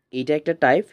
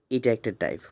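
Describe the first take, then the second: First: type lifted with a rising, asking tune; এইটা একটা type with the voice rising on type; rising emphasis. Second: এটা pressed and the line falling to a close; এটা একটা type with the weight on এটা and a falling close; firm falling stress. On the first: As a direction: lift type up at the end like checking in. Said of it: "বুঝছো?". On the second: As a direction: settle it firmly, stressing এটা. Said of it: "মাথায় রাখতে হবে". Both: Shown as a demonstration.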